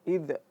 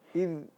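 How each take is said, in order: First: The final consonant bounces with a glottal release. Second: The final consonant ends cleanly without a release. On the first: The speaker calls it wrong. "memantulkan dan keluar huruf hamzahnya" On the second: The speaker calls it right. "Tetapi harus id"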